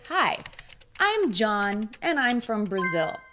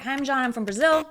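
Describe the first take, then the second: First: The introduction is spoken slowly. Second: The introduction is spoken quickly. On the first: The speaker calls it right. "if you speak a little bit slower than normal" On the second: The speaker calls it wrong. "don't say"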